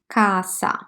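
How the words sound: The middle consonant is a voiceless s sound. The speaker is from southern Italy. "they pronounce the S one hundred percent s"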